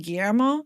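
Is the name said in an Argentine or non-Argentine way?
non-Argentine. The name is said without an Argentine accent. This is how many listeners expect it. "Shouldn't it be Guillermo?"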